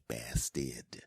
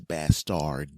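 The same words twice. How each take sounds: First: It is said in the speaker's own accent, like 'bastid'. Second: It is said in a pronunciation outside the speaker's accent. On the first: The speaker calls it right. "I say bastard" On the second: The speaker calls it wrong. "that's not how my accent pronounces the word bastard"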